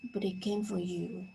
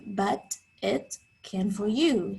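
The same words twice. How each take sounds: First: The words run together with changed T sounds. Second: The words are said separately with clear T sounds. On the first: "Did you notice the connected speech there?" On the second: "Fitz didn't say but it can for you"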